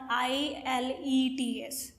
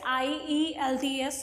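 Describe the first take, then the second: First: The letters are said with L before E. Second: The letters are said with E before L. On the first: The speaker calls it wrong. "which is a wrong thing" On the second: The speaker calls it right. "it's I E L T S"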